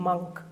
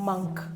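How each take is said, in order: The two takes are said the same way.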